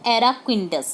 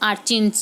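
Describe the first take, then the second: First: The word is said with four syllables. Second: The word is said with two syllables. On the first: The speaker calls it right. "इसका जो pronunciation है वो एराक्विंडस है" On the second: The speaker calls it wrong. "आर्चिन्स जिसको मैं बोल रही थी"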